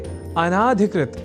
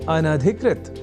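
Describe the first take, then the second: First: The vowel after 'an' is long. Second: The vowel after 'an' is short. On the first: The speaker calls it wrong. "बोलने की भी प्रवृत्ति या कुप्रवृत्ति बढ़ गई है" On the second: The speaker calls it right. "वह शब्द है अनधिकृत"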